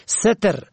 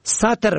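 First: ستر said "seter"; short e after s in ستر; e on first. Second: ستر said "sater"; fatha on first. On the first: Teacher shows ستر for "veiling", pronounced seter. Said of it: "روپوشی". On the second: Teacher shows ستر for "covering", pronounced sater. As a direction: open a after s in ستر. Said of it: "به فتح اول". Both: Shown as a demonstration.

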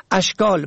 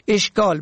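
First: اشکال said "ashkal"; fatha on first. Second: اشکال said "eshkal"; short e starting اشکال; e on first. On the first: Teacher shows اشکال for "shapes", pronounced ashkal. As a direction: open a starting اشکال. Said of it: "به فتح اول". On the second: Teacher shows اشکال for "difficulties", pronounced eshkal. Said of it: "مشکلات". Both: Shown as a demonstration.

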